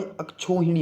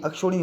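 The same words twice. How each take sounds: First: अक्षोहिणी with broad "chhau"; correct pronunciation. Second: अक्षोहिणी with "ksho"; wrong pronunciation. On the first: Teacher corrects it for students, careful pronunciation. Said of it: "इसमें बड़े ओ की मात्रा". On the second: Teacher shows students the faulty form, mispronounced. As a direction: say अक्षोहिणी as "ak-sho-rini". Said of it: "अक्षोहिणी होता भाई". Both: Shown as a demonstration.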